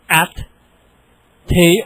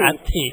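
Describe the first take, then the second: First: The two syllables are separated by a long gap. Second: The two syllables run closely together. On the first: "wait a long time between the syllables" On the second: "move them together a little closer"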